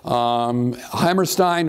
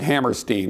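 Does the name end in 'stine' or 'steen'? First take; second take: stine; steen. First: The last syllable is said as 'stine'. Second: The last syllable is said as 'steen'. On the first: The speaker calls it wrong. "I seem to be Stein instead of Steen" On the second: The speaker calls it right. "he actually pronounced it Hammerstein"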